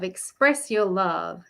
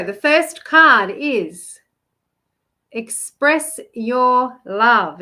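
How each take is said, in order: First: Said in the usual way. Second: Slow, drawn-out reveal of "express your love"; slow and emphatic, leaning on "your"; slow card reveal. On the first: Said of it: "repeats the card name". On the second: Shown as a demonstration. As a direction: announce the card slowly and grandly. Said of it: "announcing the card".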